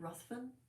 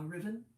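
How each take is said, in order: First: The name is said with a 'th' sound. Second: The name is said like 'riven', without 'th'. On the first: "we would pronounce it Lord Ruthven" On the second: "or uh, Riven"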